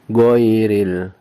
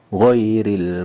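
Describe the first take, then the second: First: It starts with a hard g sound. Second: It starts with a throaty gh sound. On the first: The speaker calls it wrong. "itu bunyi huruf G" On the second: The speaker calls it right.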